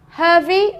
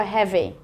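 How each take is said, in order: First: "heavy" mispronounced as "hurvy"; wrong "er" vowel. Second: "heavy" with an open "eh", as in head; short "e" vowel. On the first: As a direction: put the vowel of "her" into "heavy". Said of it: "Is it an uh or an air sound?". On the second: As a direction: say "heavy" to rhyme with "bevy". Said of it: "It's heavy". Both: Shown as a demonstration.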